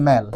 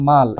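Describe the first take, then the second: First: ম্যাল with the flat English a sound; teacher giving the correct ম্যাল; right way: mal as in malfunction. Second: মাল with a plain open a, as in Bengali মাল; teacher showing the wrong মাল; wrong way: mal. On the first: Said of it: "উচ্চারণটা এভাবে করবে ম্যাল". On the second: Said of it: "ভাইবো না এটা মাল". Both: Shown as a demonstration.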